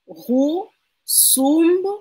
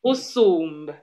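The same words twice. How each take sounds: First: RUSUMB drawn out and climbing in pitch; rising intonation. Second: RUSUMB said firmly, loud, without going up; no rise. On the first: Real, not acted. Learner tries the Isangu phrase, pitch wrongly rising. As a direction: lift "Rusumb" upward, slowly, syllable by syllable. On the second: Shown as a demonstration. Teacher corrects the learner's intonation, no rise at the end. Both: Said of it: "Ça ne monte pas".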